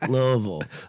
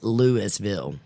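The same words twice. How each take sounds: First: It is mumbled with almost no mouth movement. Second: It is said with each part clearly articulated. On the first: This is how locals in Kentucky say it. "pretend that your mouth is completely numb from bourbon" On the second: This is how people in Colorado say it. "And they pronounce it"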